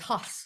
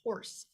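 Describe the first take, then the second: First: The word is said with no r sound. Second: The word is said with a clear r sound. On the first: "but it was "Huss."" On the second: "she was saying horse"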